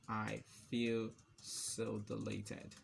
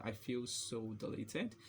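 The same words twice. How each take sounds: First: Slow, drawn-out words; typing-pace dictation. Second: Said in the usual way. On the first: Real, not acted. Typing deleted example text, slow dictation. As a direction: say each word as you type.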